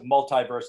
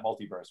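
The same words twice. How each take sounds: First: The second syllable of multi sounds like eye. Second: The second syllable of multi sounds like ee.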